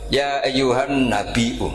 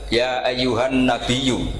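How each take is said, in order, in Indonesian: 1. Kata terakhir memiliki hamzah, tanpa bunyi y. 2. Kata terakhir memiliki bunyi y, tanpa hamzah. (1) "ini mahmus" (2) "Imam Asim mentakhfif hamzah menjadi ya"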